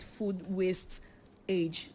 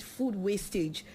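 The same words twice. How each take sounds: First: "waste ... age" broken by a pause; split misreading. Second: Said in the usual way. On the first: Real, not acted. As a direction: hesitate between "waste" and "age". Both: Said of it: "Okay, with food wastage".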